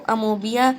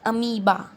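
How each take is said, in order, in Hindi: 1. इसमें o की आवाज़ होती है: amobia. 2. इसमें o की आवाज़ नहीं होती: ameeba. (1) "ये इसका करेक्ट प्रोनाउंसिएशन नहीं है" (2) "इसका ओरिजिनल प्रोनाउंसिएशन क्या है? अमीबा"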